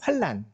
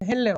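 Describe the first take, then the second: First: The name is said with a Korean-adapted pronunciation. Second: The name is said with an English-like pronunciation. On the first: Locals adapted the foreign name to Korean sounds. "조선식으로 그 영어를 발음하다 보니까" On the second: This is the name the foreigners gave. "헬렌, 헬렌 하는데"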